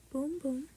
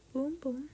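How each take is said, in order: Both takes have the same delivery.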